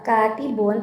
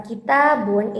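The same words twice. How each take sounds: First: "katibun" with the weight on "ka"; stress on first syllable. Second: "kitabun" with the weight on "ta"; stress on second syllable. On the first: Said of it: "tekanannya terdapat pada huruf kafnya". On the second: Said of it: "tekanan pada huruf taknya". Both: Shown as a demonstration.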